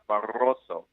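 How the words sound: It has a Spanish accent with a rolled R. "the Spanish way, you roll your R's"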